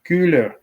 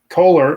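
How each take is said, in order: First: The name is pronounced the German way. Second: The name is pronounced the English way. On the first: "that's the German pronunciation" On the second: "is what I call him and what he was okay with"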